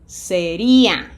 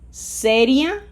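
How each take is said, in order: First: The stress is on the second syllable. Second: The stress is on the first syllable.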